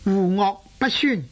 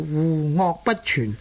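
First: The last syllable sounds like 'syun'. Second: The last syllable sounds like 'chyun'. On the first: "亦有人呢读做酸" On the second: "正確嘅读法呢就係读做户恶不全"

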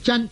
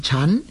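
First: It starts with a dz sound, ending in n. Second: It starts with a ch sound, ending in m. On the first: The speaker calls it wrong. "有人呢读做真" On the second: The speaker calls it right. "正確嘅读音呢系应该呢读做沉"

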